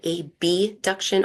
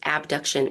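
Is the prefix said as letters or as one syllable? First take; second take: letters; one syllable. First: The prefix letters are said separately and clearly. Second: The prefix is said as one ordinary syllable. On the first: This makes the term easier for listeners to tell apart. "I often say abduction or adduction, just to clarify" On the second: This is the standard form of the term. "the proper way to say this is"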